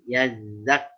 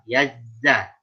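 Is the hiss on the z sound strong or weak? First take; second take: weak; strong. First: The z sound has only a weak hiss. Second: The z sound has a strong, clear hiss. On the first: The speaker calls it wrong. "yazak masih kurang" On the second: The speaker calls it right. "Ada geriginya lah... sedikit tambahan suara atau desis"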